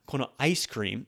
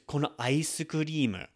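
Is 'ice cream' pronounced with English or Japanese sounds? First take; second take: English; Japanese. First: Ice cream is said with English sounds. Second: Ice cream is said with Japanese sounds. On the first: The speaker calls it wrong. "like they would say it in their native language" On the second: The speaker calls it right. "we want to make sure we pronounce it like them"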